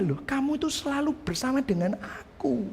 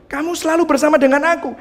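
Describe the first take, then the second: First: Father's reply, much softer; gentle father. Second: Father's words again, fast and pressing; emphatic father. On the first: Father reassuring his elder son, soft and tender. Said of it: "Terus papanya". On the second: Preacher repeating the father's words to the church, fast and emphatic. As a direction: push the line quickly to make the point. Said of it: "Papanya ngomong gitu". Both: Acted.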